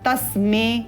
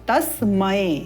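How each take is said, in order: First: The word ends in a plain 'e' vowel. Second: The word ends in an 'ai' vowel. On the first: The speaker calls it wrong. "जब हम म में अगर ए का स्वर युक्त करें तो क्या उच्चारण होगा?" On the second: The speaker calls it right. "उपयुक्त है"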